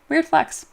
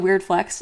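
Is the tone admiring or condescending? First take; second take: admiring; condescending. First: It sounds impressed and admiring. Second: It sounds dismissive and condescending. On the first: The boast is genuinely impressive. "but that's actually very cool" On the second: The boast is being mocked. "as like a condescending put down"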